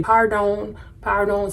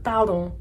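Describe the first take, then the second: First: "pardon" as PAR-dohn, American R; anglicised "pardon", R and final N both pronounced; American-accented pardon. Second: "pardon" as par-DON with the final N unspoken, only nasal; French "pardon", French D and R, nasalised last vowel; French pronunciation of pardon. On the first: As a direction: say "pardon" the English way, hard R and a long O with a clear N. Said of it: "but it's, it's slightly different". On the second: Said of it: "Pardon also has it with the nasal R". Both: Shown as a demonstration.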